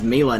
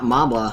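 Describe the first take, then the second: First: The name is said with an E sound. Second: The name is said with a B sound. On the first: The speaker calls it right. "I can pronounce his name as Mela" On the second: The speaker calls it wrong. "not Mabla, as I originally thought it was"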